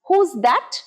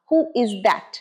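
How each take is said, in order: First: Who is is shortened to one syllable. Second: Who and is are said as two words.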